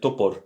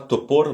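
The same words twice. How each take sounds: First: The second vowel is a weak 'a' sound. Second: The second vowel is a full 'o' sound. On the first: The speaker calls it right. "le deuxième O est prononcé comme un A faible" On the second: The speaker calls it wrong. "c'est pas topor"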